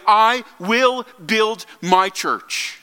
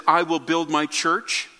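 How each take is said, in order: First: "I will build my church" very slow, each word weighted; emphatic, word by word. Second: Said in the usual way. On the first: Retold or imitated. Preacher driving home Jesus' claim to his church, emphatic. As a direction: stress "I", "will" and "my" separately, slowly. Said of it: "He is saying emphatically". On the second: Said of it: "he is making an emphatic, emphatic statement".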